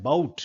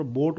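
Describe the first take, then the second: First: बाउट with a schwa gliding into u; correct pronunciation of boat. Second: बोट with one pure o; Indian pronunciation of boat. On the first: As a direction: glide the vowel of बाउट, "buh-oot". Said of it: "actually ये शब्द है बाउट". (बाउट में अ से उ तक) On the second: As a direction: keep a single steady o in बोट. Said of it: "India में इसको आमतौर पर बोट बोलते". (बोट में सीधा ओ, बिना उ के) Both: Shown as a demonstration.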